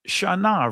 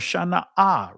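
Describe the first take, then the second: First: The word ends on a plain open vowel. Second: The word ends with a glottal catch and vowel.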